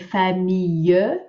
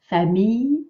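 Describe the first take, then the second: First: The word is said with three syllables. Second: The word is said with two syllables. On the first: The speaker calls it wrong. "make sure you don't say famille" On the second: The speaker calls it right. "two syllables"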